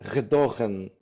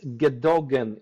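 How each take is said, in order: First: It is said with Dutch pronunciation. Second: It is said as spelled, English-style. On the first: "because Dutch pronounce R, so it's" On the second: "if you pronounce it uh, the way it's written"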